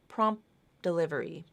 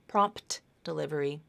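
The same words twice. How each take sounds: First: The T in prompt is dropped. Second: The T in prompt is pronounced. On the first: The speaker calls it right. "that T is dropped" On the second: The speaker calls it wrong.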